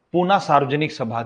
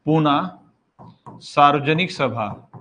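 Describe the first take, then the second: First: Said in the usual way. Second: "Poona" then "सार्वजनिक सभा" spelled out slowly, word by word; slow dictation. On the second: Shown as a demonstration. Teacher dictating a society's name to students, slow and spaced out. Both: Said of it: "बस इतना लिख सकते हो".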